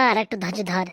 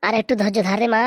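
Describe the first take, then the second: First: Quietly repeating আর একটু ধৈর্য ধর, much softer; hushed repeat to calm her daughter; soft echo. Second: Said in the usual way. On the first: Acted. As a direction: say it again under the breath, soothing.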